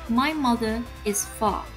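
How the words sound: The r sounds are dropped, non-rhotic. "dengan British English dibaca ... Untuk British R-nya hilang"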